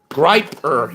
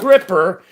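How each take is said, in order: First: The first vowel sounds like 'eye'. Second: The first vowel sounds like short 'ih'. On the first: The speaker calls it right. "it's Griper" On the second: The speaker calls it wrong. "it's not Gripper"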